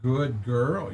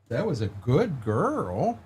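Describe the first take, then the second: First: Soft, rising praise for a dog. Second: Slow, soft praise for a dog; drawn-out coo to a good dog. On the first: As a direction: coo it to a good dog. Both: Real, not acted.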